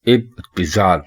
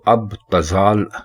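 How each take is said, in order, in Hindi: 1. पहला स्वर 'i' की आवाज़ है। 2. पहला स्वर 'a' की आवाज़ है। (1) "अलिफ के नीचे जेर है और उसके बाद पे के नीचे भी जेर है" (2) "अब तजाल गलत है"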